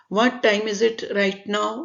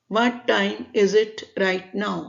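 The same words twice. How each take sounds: The two takes are said the same way.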